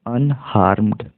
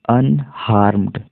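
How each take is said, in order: Both takes have the same delivery.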